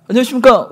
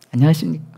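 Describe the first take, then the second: First: High, loud greeting breaking into giggles; greeting while laughing. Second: Loud military greeting. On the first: Recruit greeting seniors while giggling, high and loud. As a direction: salute but can't stop grinning. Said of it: "웃는 거예요". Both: Retold or imitated.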